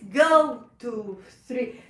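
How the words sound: The counting is gentle and smooth.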